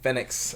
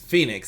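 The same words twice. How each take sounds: First: The name is said in an imitated accent. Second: The name is said in an ordinary accent. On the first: "and he's like, Phoenix. ... It's just the accent" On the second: "It's Phoenix"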